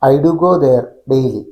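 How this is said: The only pause comes after "there". "I do go there എന്ന് ഒറ്റ വാക്കിൽ പറഞ്ഞിട്ട് ഗ്യാപ്പ്, പിന്നെ ഡെയിലി"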